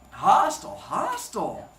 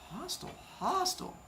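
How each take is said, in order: First: Punchy, louder hostile; emphatic mock verdict. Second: High, soft sarcastic aside; a mocking little echo of hostile. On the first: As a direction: bark the first hostile out, then let the second drop. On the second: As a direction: mutter it wryly under your breath, high. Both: Wry comment on wife's tone.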